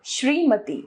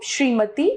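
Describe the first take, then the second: First: Said in the usual way. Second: श्रीमती as a mistaken form, ending raised; wrong pronunciation. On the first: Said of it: "इसका शुद्ध है". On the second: Shown as a demonstration. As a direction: show the faulty श्रीमती with a rising end. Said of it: "अशुद्ध रूप".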